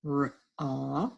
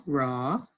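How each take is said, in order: First: Raw split into r and aw; sounded out. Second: Said in the usual way. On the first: Shown as a demonstration. Teacher decoding for the class, raw sounded out. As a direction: break raw into r, then a long aw. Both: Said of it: "words we just sounded out".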